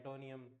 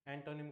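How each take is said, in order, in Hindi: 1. शब्द का अंत एक अतिरिक्त '-nium' की आवाज़ से होता है। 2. शब्द का अंत छोटे '-nim' की आवाज़ से होता है।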